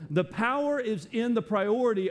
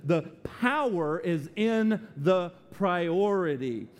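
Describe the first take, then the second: First: Said in the usual way. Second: Slow, deliberate emphasis. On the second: Shown as a demonstration. Preacher to distracted listeners, said slowly. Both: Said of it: "I'm gonna say that slow".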